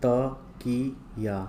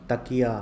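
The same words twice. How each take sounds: First: Slow, drawn-out त-की-या; syllable by syllable. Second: Said in the usual way. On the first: Shown as a demonstration. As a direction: sound out तकिया in separate long syllables. Word broken up before blending.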